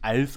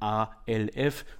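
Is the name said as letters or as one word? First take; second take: one word; letters. First: The name is said as a single word. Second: The name is spelled out letter by letter. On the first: The speaker calls it wrong. "vielleicht spricht man meine Firma gar nicht ALF aus" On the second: The speaker calls it right. "wobei die ersten beiden Buchstaben meine Initialen sind"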